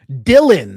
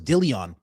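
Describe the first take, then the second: First: The name sounds like 'Dylan'. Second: The name sounds like 'Dillion'. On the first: The speaker calls it right. "that's how you say it" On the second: The speaker calls it wrong. "I thought it was Dillion"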